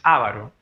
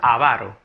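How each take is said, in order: First: The stress is not on the middle syllable. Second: The stress is on the middle syllable. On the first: The speaker calls it wrong. "no es avaro" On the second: The speaker calls it right. "La palabra es, recuerda, avaro"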